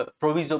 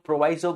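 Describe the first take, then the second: First: प्रोविजो with an "ee" sound in the middle; alternative pronunciation. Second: प्रोवाइजो with a long "eye" in the middle; variant pronunciation. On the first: Teacher showing students how some others say it, alternative pronunciation pro-vee-zo. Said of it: "कुछ लोग, अ, प्रोविजो बोलते हैं". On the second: Teacher showing students how many people say it, variant pronunciation pro-vai-zo. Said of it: "कई लोग प्रोवाइजो बोलते हैं". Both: Shown as a demonstration.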